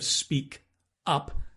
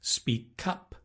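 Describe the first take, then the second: First: The two words are said separately. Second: The final consonant links into the vowel. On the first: "Instead of" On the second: "So you can link"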